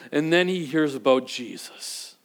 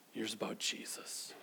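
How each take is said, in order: First: Said in the usual way. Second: He hears about Jesus whispered, breathy and low; hushed whisper, much softer. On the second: A narrator's reading. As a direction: lean in and whisper the news. Dramatic whispered repeat.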